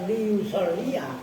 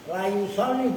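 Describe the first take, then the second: First: The first syllable has 'i', with a final 'a'. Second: The first syllable has 'a', with no final vowel. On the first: The verb is marked as expressing a purpose. The speaker calls it wrong. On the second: The verb is emphasized, not made dependent. The speaker calls it right. "Itu lamnya dibaca fathah"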